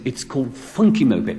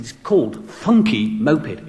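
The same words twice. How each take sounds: First: Said in the usual way. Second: Slow, deliberate correction. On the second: Retold or imitated. Guest repeating "Funky Moped" for a deaf DJ, slow deliberate correction.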